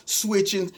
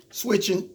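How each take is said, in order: Both takes have the same delivery.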